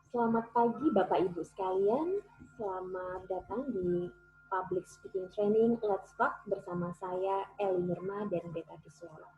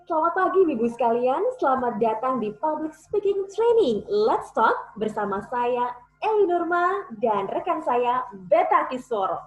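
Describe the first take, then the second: First: It is said flatly, without expression. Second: It is said expressively and powerfully.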